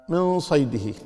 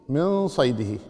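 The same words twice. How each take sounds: Both takes have the same delivery.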